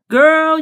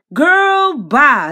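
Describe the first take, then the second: First: Loud exasperated call. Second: Loud dismissal. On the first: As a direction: call her out loud and high. Scolding Queen directly. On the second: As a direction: wave her off with a loud cry. Dismissive outburst at Queen. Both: Real, not acted.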